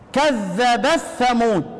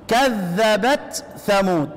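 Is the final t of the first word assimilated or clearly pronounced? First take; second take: assimilated; clear. First: The t merges into the following th sound. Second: The t is pronounced clearly before the th. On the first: This follows a different reading tradition. "بالإدغام يا كذب الثمود" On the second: This follows the reciter's own reading tradition. "عشان تقرأ بالإظهار كذبت ثمود"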